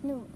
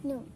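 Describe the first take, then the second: No difference in how they are said.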